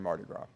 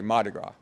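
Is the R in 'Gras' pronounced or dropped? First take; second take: pronounced; dropped. First: The R in Gras is pronounced. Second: The R is dropped, Louisiana style.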